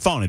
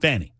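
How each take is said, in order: First: The first vowel sounds like the one in caught. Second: The first vowel sounds like the one in cat. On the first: The speaker calls it wrong. "not Fawny. There's no W. There's no U" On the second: The speaker calls it right. "F A N I, Fanny"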